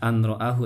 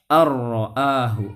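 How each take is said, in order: First: The n is held before the r. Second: The n merges fully into the r. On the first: The speaker calls it wrong. "jangan dibaca an ro'ahu ya" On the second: The speaker calls it right. "tapi harus dibaca ar-ro'ahu"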